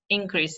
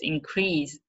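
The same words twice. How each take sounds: First: The stress is on the first syllable. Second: The stress is on the last syllable. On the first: It is used as a noun. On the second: It is used as a verb.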